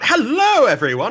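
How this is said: The greeting sounds lively and excited.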